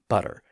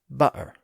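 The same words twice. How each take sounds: First: The middle consonant is a soft D sound. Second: The middle consonant is a glottal stop. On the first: "it often becomes a D sound when followed by er" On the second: "the T is dropped and becomes a glottal stop"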